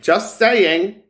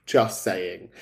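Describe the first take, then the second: First: High, loud sing-song just saying; a mock-innocent high "Just saying"; teasing. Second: Low, soft deadpan just saying; a muttered low "Just saying". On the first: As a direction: tease her playfully, pitched up. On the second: Acted. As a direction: drop it low and dry. Teasing repeat, low and soft.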